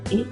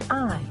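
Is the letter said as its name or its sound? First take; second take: sound; name. First: The letter is said as its sound. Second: The letter is said as its name. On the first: "The sound is I" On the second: "the name is I"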